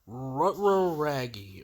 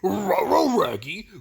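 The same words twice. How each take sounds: First: A put-on cartoon dog voice, loosely imitated. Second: A put-on cartoon dog voice, closely imitated. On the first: The speaker calls it wrong. "when I see an opportunity to do a voice" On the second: The speaker calls it right. "it's supposed to sound more like"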